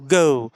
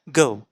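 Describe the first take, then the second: First: The vowel is drawn out long. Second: The vowel is short and quick. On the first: "ओ का जो part है वो बहुत ही तेज और बहुत ही लंबा" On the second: "इसका ओ का जो साउंड है वो शॉर्ट शॉर्ट टेस्ट साउंड है"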